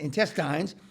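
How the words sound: The word has a British-style pronunciation.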